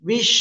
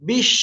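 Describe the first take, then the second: The two takes are said the same way.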